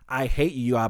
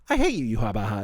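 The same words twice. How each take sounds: First: It sounds hostile and genuinely angry. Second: It sounds warm, friendly and teasing. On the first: The speaker really means the insult. "instead of going like" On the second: The insult is said with affection between friends. "a connotation that's supposed to be like this nice friendly thing"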